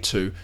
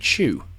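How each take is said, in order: First: The word begins with a plain t sound. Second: The word begins with a ch sound.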